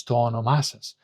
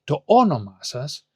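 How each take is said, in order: First: "to όνομά σας" stressed on both ό and μά; double stress. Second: "to όνομά σας" stressed only on the first ό; single stress. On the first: Teacher showing the tone moved back, two stresses on "όνομά". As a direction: add a second stress on the end of "όνομά". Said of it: "the tone from this pronoun goes back". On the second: Teacher showing learners the expected form, one stress on "όνομά". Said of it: "so what would be". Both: Shown as a demonstration.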